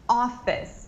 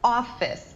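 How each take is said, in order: First: The word is said with two syllables. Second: The word is said with two syllables.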